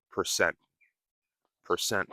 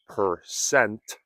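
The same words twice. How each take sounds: First: "percent" short and softer, T dropped; reduced final T. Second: Slow "percent" with a clearly released final T; careful full T. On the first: Teacher modeling the practice step, soft "percent" without T. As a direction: say "percent" quickly, stopping on the N. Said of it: "then you can practice saying". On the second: Teacher giving beginners a start, "percent" with full T. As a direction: sound out "percent", ending on a sharp T. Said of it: "you can start by saying". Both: Shown as a demonstration.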